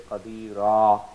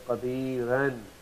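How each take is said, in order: First: The word ends without any n sound. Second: The word ends with an added n sound.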